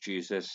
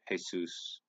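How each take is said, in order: First: The name is pronounced the English way. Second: The name is pronounced the Spanish way. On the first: "In English"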